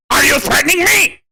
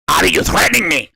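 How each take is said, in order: First: High cartoon whine; mocking high accusation; Cornholio voice. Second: Said in the usual way. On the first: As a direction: squeal it like the cartoon. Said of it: "I am Cornholio!".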